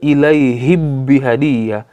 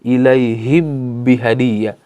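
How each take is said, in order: No difference in how they are said.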